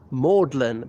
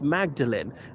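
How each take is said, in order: First: The name is said in the Oxford college style. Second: The name is said in the usual general style. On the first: This is the form used at Oxford University. The speaker calls it wrong. "I find myself instinctively pronouncing it Magdalen" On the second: This is the form used everywhere outside Oxford. The speaker calls it right. "outside Oxford University it's always pronounced Magdalene"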